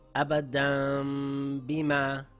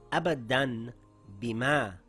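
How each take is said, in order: First: A held nasal m sound comes before the b. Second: A plain n sound comes before the b. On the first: "The correct way of reading it is Abadam Bima. I changed the Noon sound to a Meem sound" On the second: "The word reads Abadan Bima"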